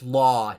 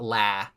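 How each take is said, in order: First: The vowel is a rounded 'aw' sound. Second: The vowel is an open 'ah' sound. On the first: The speaker calls it right. "It's law" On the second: The speaker calls it wrong. "not la"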